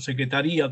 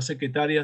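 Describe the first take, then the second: First: The stress falls on the second-to-last syllable. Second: The stress falls on the third-to-last syllable. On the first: It refers to the office. "con tilde se refiere a la oficina" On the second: It refers to the office worker. "sin tilde se refiere a la oficinista"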